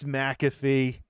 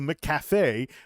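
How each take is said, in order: First: The name is said as mack-a-fee. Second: The name is said as mack-caf-ay. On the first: The speaker calls it right. "It's McAfee" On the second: The speaker calls it wrong. "we're going to mispronounce McAfee or McAfee as McCafe"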